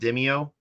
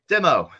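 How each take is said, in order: First: The name is said with three syllables. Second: The name is said with two syllables. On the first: The speaker calls it wrong. "I've I've been pronouncing it Demio forever" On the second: The speaker calls it right. "I can say it now"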